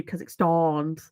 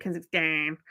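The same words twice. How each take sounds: First: Kazakhstans with a drawn-out "-stahn"; long "ah" ending. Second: Kazakhstan with a nasal Brummie "-stan"; nasal Brummie accent. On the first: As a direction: broaden the final vowel of Kazakhstans. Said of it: "I think I probably did a few". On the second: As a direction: lean into the Brummie vowel on Kazakhstan. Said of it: "I'd always like". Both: Retold or imitated.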